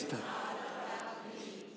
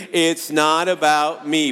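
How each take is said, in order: First: Soft breathy repeat. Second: Slow emphatic chant. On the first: Pastor leads the church in a whispered final repeat, slow and soft. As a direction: whisper it slowly, almost no voice. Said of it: "One more time". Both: Shown as a demonstration.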